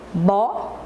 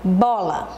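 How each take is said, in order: First: "Bola" split into bo... la, long pause between; slow syllable-counting demo of "Bola". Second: Said in the usual way. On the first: Shown as a demonstration. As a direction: say "Bola" one syllable at a time, first one rising. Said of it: "Vamos falar bem devagar". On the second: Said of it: "E a palavra bola?".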